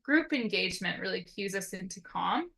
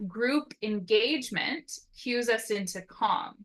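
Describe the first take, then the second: First: Said in the usual way. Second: Group engagement said slowly and deliberately; slow emphasis. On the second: Shown as a demonstration. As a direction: lean on each word of Group engagement, unhurried.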